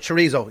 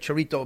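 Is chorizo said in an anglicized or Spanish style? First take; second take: anglicized; Spanish. First: The word is said in an anglicized style. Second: The word is said in a Spanish style. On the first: This is how local Irish speakers say it. "I think we'd call it chorizo" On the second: This is how Spanish speakers say it. "some of the Spanish would say chorrito"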